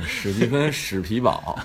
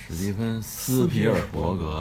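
First: 史蒂芬·史皮堡 with the three-syllable Hong Kong rendering; short Cantonese-style name. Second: 史蒂芬·斯皮尔伯格 as the full mainland transliteration, every syllable said; full Chinese name. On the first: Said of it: "不是，史蒂芬·史皮堡". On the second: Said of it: "这一定要一起念出来". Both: Shown as a demonstration.

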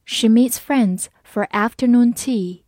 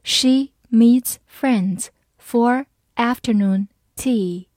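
First: Said in the usual way. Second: Slow, word by word; slow reading. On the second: Shown as a demonstration. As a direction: read it slowly for learners, pausing between words. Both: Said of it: "好，慢慢来读".

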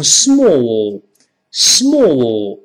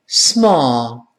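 First: British "small" with a rounded, drawn-out vowel; British pronunciation. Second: American "small" with an open, sigh-like "ah" vowel; American pronunciation. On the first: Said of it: "英国人读成". (英式发音，拖长读small) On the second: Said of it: "美音就简单喽，直接组成叹气音". (美式发音，small读成叹气音) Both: Shown as a demonstration.

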